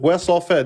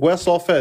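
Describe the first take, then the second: First: The phrase comes out in one go. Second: The same.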